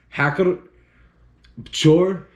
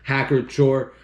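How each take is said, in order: First: The name is pronounced the German way. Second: The name is pronounced the American way. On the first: "The actual pronunci- pronunciation of this is" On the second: "I'm an American Yankee"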